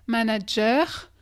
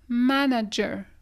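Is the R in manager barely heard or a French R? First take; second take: French R; barely heard. First: The R is a strong French-style R. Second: The R is so soft it is barely heard. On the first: The speaker calls it wrong. "l'accent français quand on fait notre R" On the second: The speaker calls it right. "C'est à peine comme si on l'entendait"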